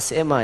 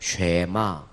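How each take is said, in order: First: The word begins with a plain s sound. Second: The word begins with an sh sound. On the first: The speaker calls it wrong. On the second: The speaker calls it right.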